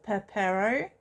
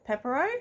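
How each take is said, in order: First: Pepero as peh-PAIR-oh; tentative pronunciation. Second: Pepero as PEP-er-oh, questioning; alternative pronunciation. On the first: Vlogger guessing at the Korean snack's name, Pepero as peh-PAIR-oh. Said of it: "I think that it's pronounced". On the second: Vlogger offering another guess at the name, Pepero as PEP-er-oh. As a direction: stress the first syllable of "Pepero", PEP-er-oh, rising. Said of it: "it's pronounced Pepero or". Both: Shown as a demonstration.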